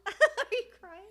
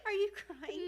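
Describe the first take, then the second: First: Much louder, higher, slow, laughing "Are you crying?"; delighted teasing shout at her crying friend; loud laughing tease. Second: High, laughing, a bit louder tease; playful laughing question to her friend. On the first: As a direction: stretch the tease out through laughter. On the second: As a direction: poke fun at her tears, giggling. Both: Real, not acted. Teasing friend who is tearing up.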